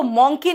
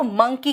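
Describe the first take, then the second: First: मंकी as rounded "mon-kee"; mispronunciation of monkey. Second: मंकी as "mun-kee"; short "uh" in मंकी; correct pronunciation. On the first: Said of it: "इसको मंकी नहीं". (मंकी को गलत "मॉन्की" बोलें) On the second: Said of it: "इसको मंकी कहते हैं". (मंकी में छोटा "अ") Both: Shown as a demonstration.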